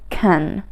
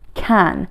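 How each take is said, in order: First: The word is said quickly with a weak vowel. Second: The word is said with a full, strong vowel. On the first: "when you want to say it faster" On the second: "you say it strong"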